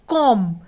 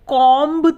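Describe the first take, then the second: First: The final b sound is silent. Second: The final b sound is pronounced. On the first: The speaker calls it right. "यहाँ पर जो B है वो नहीं बोला जा रहा है" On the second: The speaker calls it wrong. "हम कॉम्ब तो नहीं बोलते ना"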